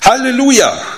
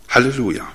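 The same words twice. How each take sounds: First: It is said joyfully, with enthusiasm. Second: It is said flatly, without enthusiasm.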